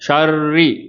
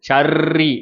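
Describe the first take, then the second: First: The r is said without any tongue vibration. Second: The r is rolled with a strong tongue vibration. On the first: The speaker calls it right. "அப்போ ஷர்ரி அப்படி இருக்கணும்" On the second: The speaker calls it wrong. "ர்ன்னு நாவ போட்டு நம்ம வைப்ரேஷன் குடுக்கக்கூடாது"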